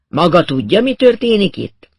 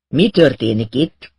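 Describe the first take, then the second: First: Louder, much higher challenge; insistent demand. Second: Slow, mildly menacing question; ominous question. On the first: Acted. Inspector presses the narrator for answers, loud and insistent. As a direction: throw the question at them, rising sharply. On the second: A narrator's reading. Inspector corners the narrator, slow and ominous. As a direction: ask slowly with a touch of threat. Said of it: "kérdezte vészjósló hangon".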